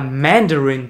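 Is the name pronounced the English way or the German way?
English. The name is pronounced the English way. "die englische Aussprache"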